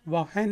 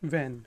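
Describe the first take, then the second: First: An extra vowel and h sound follow the w. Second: The word has no h sound at all. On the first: The speaker calls it wrong. "वाहन नहीं है" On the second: The speaker calls it right. "H silent है तो ये when है"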